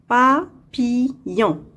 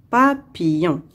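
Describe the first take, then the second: First: "Papillon" slowly split pa, pi, llon; syllable by syllable. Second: Said in the usual way. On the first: Shown as a demonstration. Teacher locating a sound for pupils, "Papillon" slowly in three parts. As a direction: break "Papillon" into three separate beats. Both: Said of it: "Dans la troisième syllabe".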